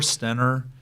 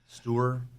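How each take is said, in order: First: The name sounds like Stenner. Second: The name sounds like Stewart.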